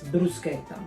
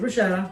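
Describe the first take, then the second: First: It is pronounced the Italian way. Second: It is pronounced the American way. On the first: The speaker calls it right. "It's bruschetta" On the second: The speaker calls it wrong. "That's an American way of calling it"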